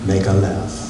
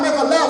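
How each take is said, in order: First: It is said in a calm, smooth voice. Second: It is said in a stern, urgent voice. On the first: It is a relaxed, ordinary direction. "You ride to a new destination and you hear" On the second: The driver must turn right away. "I want the Joe Clark Morgan Freeman"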